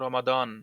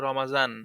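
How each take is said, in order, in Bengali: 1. মাঝের ব্যঞ্জনবর্ণটি দ-এর মতো উচ্চারিত হয়। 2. মাঝের ব্যঞ্জনবর্ণটি জ-এর মতো উচ্চারিত হয়। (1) "কিন্তু এখানে রমাদন" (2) "আমাদের দেশে বলে রমাজান"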